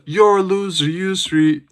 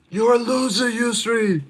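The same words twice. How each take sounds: First: High-pitched mock heckler's call; imitated heckle. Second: Very high, thin-volume imitation of a yell; mock yell. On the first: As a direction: call it out like someone in the crowd. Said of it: "I heard someone in the prelims". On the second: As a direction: yell it from afar without real volume. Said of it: "someone just yelled that out".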